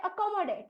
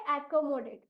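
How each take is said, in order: First: Accommodate opening on a short "uh"; actual pronunciation. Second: Accommodate opening on a flat "ae" as in cat; beginner's pronunciation. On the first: Teacher gives the word's real sound, actual pronunciation. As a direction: say accommodate as "uh-KOM-o-date", run together. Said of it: "इस शब्द का actual उच्चारण होता है". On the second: Teacher shows how young children first read it, beginner's pronunciation. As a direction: say accommodate as "AE-ko-mo-date". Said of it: "इसलिए इस शब्द को पढ़ेंगे". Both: Shown as a demonstration.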